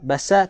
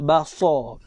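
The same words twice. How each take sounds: First: The s sound is light and thin. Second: The s sound is heavy and thick. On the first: The speaker calls it wrong. "basar tak nak" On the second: The speaker calls it right. "Kita nak basar"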